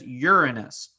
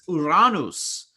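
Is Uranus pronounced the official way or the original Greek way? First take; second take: official; Greek. First: It is pronounced the officially designated way. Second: It is pronounced following the original Greek sounds. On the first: "the proper pronunciation" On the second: "the original Greek phonetics"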